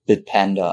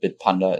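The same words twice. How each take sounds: First: It is said with an English-sounding pronunciation. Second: It is said with a German-sounding pronunciation.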